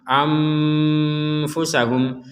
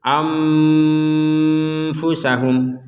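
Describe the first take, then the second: No difference in how they are said.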